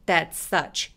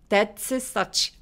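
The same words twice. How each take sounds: First: The s sound is said only once. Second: The s sound is said twice. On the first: The speaker calls it right. "한 번만 발음해서" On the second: The speaker calls it wrong. "아니고"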